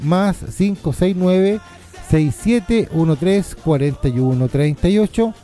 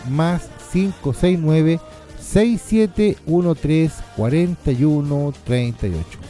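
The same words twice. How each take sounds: First: The number is said at normal speed. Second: The number is said more slowly.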